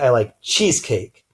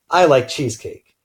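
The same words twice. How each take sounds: First: The stress falls on the word cheesecake. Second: The stress falls on the word I. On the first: The speaker likes this cake rather than another cake. "I like cheesecake versus liking carrot cake" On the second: The speaker likes it but the listener may not. "emphasizing I"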